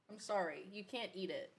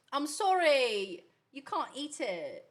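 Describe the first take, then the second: First: Said in the usual way. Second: Drawn-out put-on British, broad "can't"; British accent. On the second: Telling a pet it can't eat it, mock British accent. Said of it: "your British accent".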